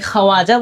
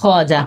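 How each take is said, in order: First: খাওয়াজা in three syllables, with an audible w; waw wrongly sounded. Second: খাজা in two syllables, with no w; silent waw. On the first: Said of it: "আমি কি খাওয়াজা বলতেছি?". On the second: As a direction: say only খাজা, skipping the w. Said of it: "শুধু বলতেছি কি খাজা". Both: Shown as a demonstration.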